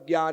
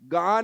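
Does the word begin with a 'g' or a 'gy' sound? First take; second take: gy; g. First: The word begins with a 'gy' sound. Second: The word begins with a plain 'g' sound. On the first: The speaker calls it wrong. "ज्यादातर लोग ज्ञान बोलते हैं" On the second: The speaker calls it right. "गान है"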